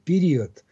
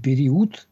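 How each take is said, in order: First: The vowel after the stress is weak, barely rounded. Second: The vowel after the stress is a clear rounded u. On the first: The speaker calls it right. "Здесь звучит все-таки гласный, почти утративший свою огубленность" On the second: The speaker calls it wrong. "И период нет, нельзя"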